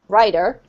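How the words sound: The middle consonant sounds like a D. "another example would be, for example, this rider or rider, same"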